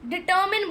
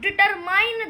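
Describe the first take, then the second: First: The last syllable sounds like 'min'. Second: The last syllable sounds like 'mine'. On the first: The speaker calls it right. "डिटरमिन बोला जाएगा" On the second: The speaker calls it wrong. "तो भाई डिटरमाइन नहीं होता है"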